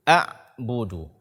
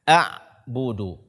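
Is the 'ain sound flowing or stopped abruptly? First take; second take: stopped; stopped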